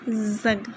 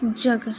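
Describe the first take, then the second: First: The word begins with a Z sound. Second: The word begins with a J sound. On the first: The speaker calls it wrong. "not zug" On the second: The speaker calls it right. "So this is jug"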